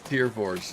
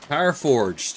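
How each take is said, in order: First: The first word rhymes with fear. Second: The first word rhymes with fire. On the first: The speaker calls it right. "It's Tier Forged" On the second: The speaker calls it wrong. "Tier, not tire"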